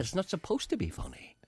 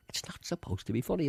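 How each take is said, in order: First: Unvoiced, hushed repeat; whispered again, half amused. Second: Said in the usual way. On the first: Real, not acted. Repeat after "What?.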